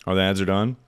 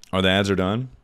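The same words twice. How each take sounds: The two takes are said the same way.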